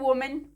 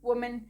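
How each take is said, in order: First: The first vowel sounds like o. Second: The same.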